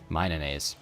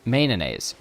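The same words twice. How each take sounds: First: The name begins with the sound 'mino'. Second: The name begins with the sound 'may'. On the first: The speaker calls it right. "It is now postnounced mayonnaise" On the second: The speaker calls it wrong. "It was prenounced mayonnaise"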